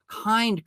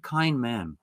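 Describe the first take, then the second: First: "Kind" leapt up high and fell; emphatic kind. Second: Said in the usual way. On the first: Real, not acted. Preacher praising Elisha's kindness, "Kind" sung out high. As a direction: hit "Kind" on a high peak.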